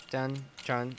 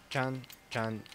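No difference in how they are said.

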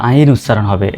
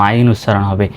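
Both takes have the same delivery.

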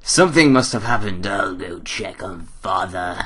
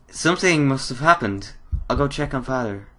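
First: Changed character voice. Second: Higher, lightly voiced girl; worried girl character. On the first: Acted. Player redoes the line about checking on Father, altered character voice. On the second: Daughter hears a scream from Father, lightly worried girl. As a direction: lift the voice into a concerned daughter. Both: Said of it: "I just changed character completely".

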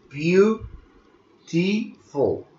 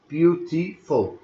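First: "Beautiful" drawn out very slowly, syllable by syllable; slow syllable demo. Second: "Beautiful" said at a quicker pace, syllables still clear; quicker syllable demo. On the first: Teacher to students, spelling out syllables, slow and drawn out. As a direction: stretch out each syllable of "Beautiful" for the class. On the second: Teacher to students, repeating the word at a quicker pace. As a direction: say "Beautiful" once more, a little quicker. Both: Shown as a demonstration. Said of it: "ثلاث مقاطع صوتية".

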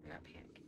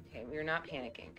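First: Barely audible whisper to yourself; whispered self-reassurance. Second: Low, quick and hushed; calm yourself down under your breath; quiet self-reassurance. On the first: Streamer still steadying herself after a scare, whispered. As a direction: breathe it out, almost no voice. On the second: Streamer steadying herself after a scare, hushed self-reassurance. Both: Real, not acted.

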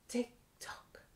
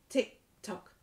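First: Whispered "tick tock", barely voiced. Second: Said in the usual way. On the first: Teacher whispering "tick tock" at the end for toddlers.

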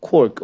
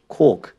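First: Said in the usual way. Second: "cork" with a British long o, no r; British accent. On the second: Shown as a demonstration. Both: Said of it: "or if you're British".

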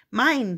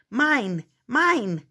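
First: A loud, falling grabby "Mine"; snatch the word "Mine" like a greedy kid; clamoring. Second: "Mine! Mine!" louder and insistent, each one falling; clamoring. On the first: Trolls clamoring over the gifts, grabby and loud. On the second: Trolls fighting over the pile, clamoring louder. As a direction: keep grabbing with each "Mine". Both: Acted. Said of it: "they clamored".

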